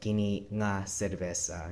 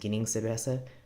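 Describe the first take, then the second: First: The linker is said as a separate word. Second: The linker is joined onto the preceding word. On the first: It stresses that it is this particular beer. "they'll use the nga by itself" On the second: It simply means this beer. "instead of saying kining cerveza"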